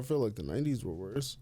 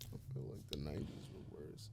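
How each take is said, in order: First: It is said loudly, in a raised voice. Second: It is said quietly, in a low voice.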